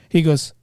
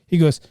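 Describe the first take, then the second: No difference in how they are said.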